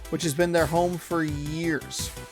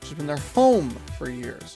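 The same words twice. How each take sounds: First: The emphasis falls on unexpected words. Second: The emphasis falls on the expected words. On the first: The speaker calls it wrong. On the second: The speaker calls it right.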